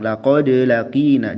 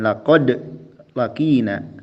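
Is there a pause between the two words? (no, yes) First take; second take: no; yes. First: There is no pause after laqad. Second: There is a pause after laqad. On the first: The speaker calls it right. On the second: The speaker calls it wrong. "jangan ada jeda"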